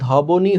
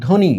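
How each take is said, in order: First: ধবনি with the "b" spoken, dho-bo-ni; sounded b. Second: ধ্বনি said "dhoni", no b; silent b. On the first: Teacher showing the spelling-based reading, b sounded in ধবনি. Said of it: "হওয়ার কথা ছিল না". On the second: Teacher showing how we really say it, silent b in ধ্বনি. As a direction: drop the ব completely in ধ্বনি. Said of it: "আমরা উচ্চারণ করছি". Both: Shown as a demonstration.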